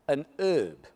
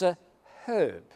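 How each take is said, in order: First: Herb is said the American way, h silent. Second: Herb is said the English way, h pronounced.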